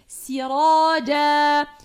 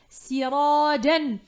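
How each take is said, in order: First: The word ends with a long vowel, no n. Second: The word ends with a short vowel plus n. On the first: Reading stops at the word. "lors de l'arrêt, on va le lire comme ceci" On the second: Reading continues on past the word. "lors de la continuité, on va le lire ainsi"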